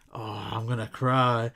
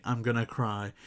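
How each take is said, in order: First: "Oh, I'm gonna cry" in a mock whiny, put-on voice with a long drawn "cry"; joking "I'm gonna cry". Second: Mean it, as if eyes are welling; wholehearted "I'm gonna cry". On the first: Vlogger imitating Gunn joking with Pratt, mock whiny. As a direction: play it as a throwaway gag, not real tears. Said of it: "it could be". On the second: Vlogger imitating a tearful Gunn saying goodbye, understated sincere. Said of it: "have tears in his eyes, saying wholeheartedly". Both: Shown as a demonstration.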